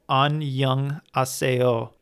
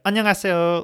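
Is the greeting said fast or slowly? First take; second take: slowly; fast. First: It is said slowly, syllable by syllable. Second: It is said fast, with syllables blended together. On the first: The speaker calls it wrong. "not necessarily really going syllable by syllable" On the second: The speaker calls it right. "It's more of just like"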